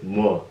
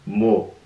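First: "뭐" said with the full wo glide; correct pronunciation. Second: "뭐" said with a plain o sound; slang vowel. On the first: Teacher giving the standard form, clear wo sound. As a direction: say "뭐" properly, with the u before the o. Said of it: "the correct way is". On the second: Teacher demonstrating the slang spelling, o vowel. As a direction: say "뭐" as an o, not wo. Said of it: "With the o". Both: Shown as a demonstration.

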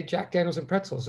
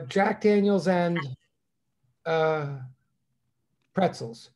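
First: Said in the usual way. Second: Drawn-out "Jack Daniels and", long pause, "uh", pause, then "pretzels"; long pause before pretzels. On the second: Acted. Bear ordering at a bar, long pause before "pretzels". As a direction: stall at length between "and" and "pretzels". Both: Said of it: "why the long pause".

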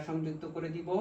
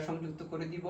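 No difference in how they are said.

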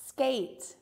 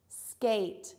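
The two takes are said the same way.

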